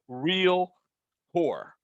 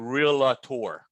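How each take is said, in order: First: The word is said as real-tor. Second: The word is not said as real-tor. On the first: The speaker calls it right. "It's called real tour" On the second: The speaker calls it wrong. "do not pronounce it realtor"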